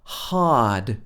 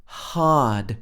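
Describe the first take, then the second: First: The R sound after the vowel is dropped. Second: The same.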